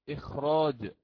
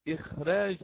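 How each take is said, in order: First: The r is pronounced heavy and full. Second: The r is pronounced light and thin. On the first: The speaker calls it wrong. "ولم نقرأ إخراج" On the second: The speaker calls it right. "لماذا قرأنا إخراج"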